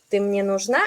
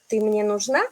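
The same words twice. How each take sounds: First: The pitch jumps very high on one word. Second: The same.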